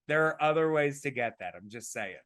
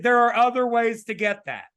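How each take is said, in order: First: Said in the usual way. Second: Raised, louder and higher voice; loud joking insistence. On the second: Shown as a demonstration. Co-host joking about a raspy voice, loud insistence. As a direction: push it out loud and high.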